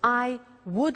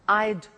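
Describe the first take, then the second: First: Two separate full words are said. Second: The words merge into one short syllable. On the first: "So I would like becomes I'd" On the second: "becomes I'd"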